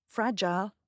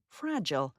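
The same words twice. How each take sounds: First: FRAGILE ending in a long "jile"; British pronunciation. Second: FRAGILE ending in a reduced "jul"; American pronunciation. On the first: Narrator recaps the word for learners, British FRAGILE as "fraj-ile". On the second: Narrator recaps the word for learners, American FRAGILE as "fraj-ul". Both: Shown as a demonstration. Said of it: "that's your Lexikit word today".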